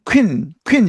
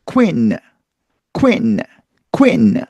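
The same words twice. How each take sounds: First: Queen as 퀸 with a final consonant; Konglish queen; Korean-style queen. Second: Queen as oo-ee-n split apart; English queen. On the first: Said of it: "받침 들어가면서 틀렸고요". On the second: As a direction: glide queen from oo. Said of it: "따로따로 발음해서". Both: Shown as a demonstration.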